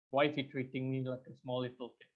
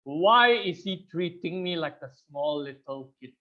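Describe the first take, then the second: First: Softer and lower, quick muttered repeat; muttered to self. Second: Said in the usual way. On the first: Retold or imitated. Asking himself again about the condescending speaker, muttered. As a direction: mutter it under your breath. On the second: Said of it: "I asked myself this question".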